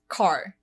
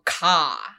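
First: It is said with the R pronounced. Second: It is said Boston-style, with the R dropped.

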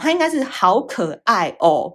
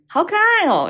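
First: It is said as four separate syllables. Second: The last two syllables run together as one. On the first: The speaker calls it wrong. "其实它是四个字的，它应该是好可爱哦。但是我觉得这样子念很憋" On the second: The speaker calls it right. "有点可爱的语气……就爱哦，这个要连在一起讲"

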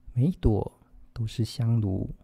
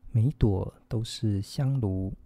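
No difference in how they are said.

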